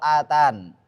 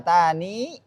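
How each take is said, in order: First: The word ends on 'n' with no vowel. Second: The word ends with a final 'ee' vowel. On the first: "Kalau berhenti bisa hilang" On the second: "Kalau berhenti dua cara bacanya"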